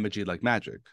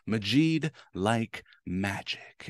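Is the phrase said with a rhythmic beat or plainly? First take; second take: plain; beat. First: It is said plainly without a marked beat. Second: It is said with a marked rhythmic beat. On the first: "instead of saying" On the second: "I say it kind of odd like that"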